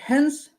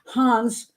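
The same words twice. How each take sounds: First: The name is pronounced the Danish way. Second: The name is pronounced the German way. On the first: The speaker calls it wrong. "I'm doing a Danish thing" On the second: The speaker calls it right. "let me do it German style"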